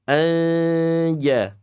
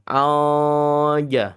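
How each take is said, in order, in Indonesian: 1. N adalah sengau ringan di antara kedua posisi. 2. N hilang jika mulut terlalu terbuka. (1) "Tapi antara keduanya" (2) "Bukan juga terlalu lebar ya"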